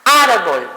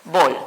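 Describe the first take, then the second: First: "Árbol" in one word, "ár" strongest; "Árbol" joined up, opening syllable emphasized; stress on first syllable. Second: "árbol" broken in two, ar, bol; "árbol" divided for a class, each syllable separate; split into syllables. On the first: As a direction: punch the "ár" of "Árbol", then drop off. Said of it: "¿Dónde sonó más?". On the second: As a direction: say "árbol" syllable by syllable with a long pause. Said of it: "Si la divido es". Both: Shown as a demonstration.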